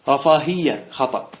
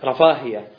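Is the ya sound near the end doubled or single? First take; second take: doubled; single. First: The ya sound near the end is doubled. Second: The ya sound near the end is single. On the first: The speaker calls it wrong. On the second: The speaker calls it right. "كلها بالتخفيف"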